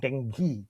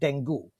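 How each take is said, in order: First: It is pronounced the American way. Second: It is pronounced the Sri Lankan way, as spelled. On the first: "the American pronunciation is more dengue" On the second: "we pronounced it the way it was spelled"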